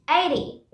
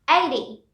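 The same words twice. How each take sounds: Both takes have the same delivery.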